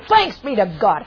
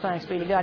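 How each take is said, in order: First: It is said with fervent, excited feeling. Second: It is said in a flat, matter-of-fact way. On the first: The thanks is heartfelt and overjoyed. The speaker calls it right. "He said, oh" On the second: The thanks is routine and casual. The speaker calls it wrong. "He wouldn't just say"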